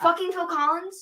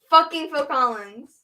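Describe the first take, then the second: First: It is said in a calmer, less angry tone. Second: It is said in an angry tone.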